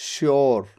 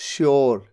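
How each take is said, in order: Both takes have the same delivery.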